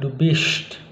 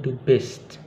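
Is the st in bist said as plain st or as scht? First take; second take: scht; plain st. First: The st is said like scht. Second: The st is said as plain st. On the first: The speaker calls it wrong. "bukan du bist" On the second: The speaker calls it right. "tapi du bist biasa"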